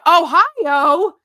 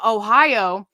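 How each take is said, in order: First: High, loud questioning holler; sudden playful shout, rising at the end; mock yelling. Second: Said in the usual way. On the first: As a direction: yell it out as an excited inside joke. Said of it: "so you were yelling". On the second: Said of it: "he ended up saying".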